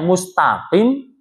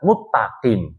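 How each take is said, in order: First: An s sound is kept before the t. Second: The s merges into a doubled t. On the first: It means the straight path. The speaker calls it right. "Mustaqim yang aslinya artinya adalah jalan yang istiqomah" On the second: The meaning is lost or changed. The speaker calls it wrong. "dibaca muttaqim"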